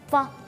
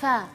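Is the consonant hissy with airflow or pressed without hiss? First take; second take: pressed; hissy. First: The f is pressed hard with no hiss. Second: The f is light with a free hiss. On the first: The speaker calls it wrong. "kalau terlalu tekan itu hurufnya kesannya jahar, yaitu uh, tidak ada desisnya" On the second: The speaker calls it right. "berdesisnya lepas, suaranya tidak tertahan"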